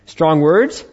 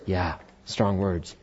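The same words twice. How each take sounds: First: Strong words? rising, a little louder; rhetorical question. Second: Yeah, strong words said softer and slowly, falling; quiet affirmation. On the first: Preacher asks the congregation with a rising question. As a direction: toss it out as a question. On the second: Preacher answers himself in a soft, slow, falling voice. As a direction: answer your own question softly. Rhetorical question then answer. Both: Acted.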